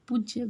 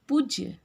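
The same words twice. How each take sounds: First: The first vowel is short. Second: The first vowel is long. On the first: The speaker calls it wrong. "पूज्य गलत है" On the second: The speaker calls it right. "पौ में बड़े ऊ की मात्रा होती है"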